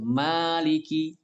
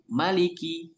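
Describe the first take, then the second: First: The first vowel is held long. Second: The first vowel is kept short. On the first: The one who owns the day. "membacanya dengan mimnya panjang" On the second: The one who is king of the day. "mimnya dibaca pendek"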